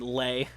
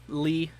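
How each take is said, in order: First: The name ends with an 'ay' vowel. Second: The name ends with an 'ee' vowel. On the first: The speaker calls it wrong. "knowing my pronunciation, it's gonna be Lay, not Lee" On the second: The speaker calls it right. "Lee is much easier to pronounce. Oh yeah, I agree"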